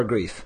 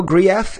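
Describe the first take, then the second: First: Said in the usual way. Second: Grief said the French way, as "gree-EFF"; French pronunciation. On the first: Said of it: "or do you prefer Grief". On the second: Shown as a demonstration. Host checking a guest's surname, Grief in French pronunciation. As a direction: say Grief with two syllables, French style. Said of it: "in line with the French pronunciation".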